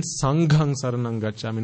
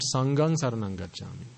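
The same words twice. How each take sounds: First: "Sanghang" with an aspirated gh; correct "Sanghang". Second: "Sanghang" with a plain g, softer; mispronounced "Sanghang". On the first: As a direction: put breath behind the gh in "Sanghang". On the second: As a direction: drop the breath from the g in "Sanghang". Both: Shown as a demonstration.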